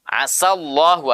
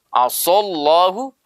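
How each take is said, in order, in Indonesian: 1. Bunyi s itu tipis dan ringan. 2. Bunyi s itu tebal dan berat. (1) "sa tipis" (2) "so tebal"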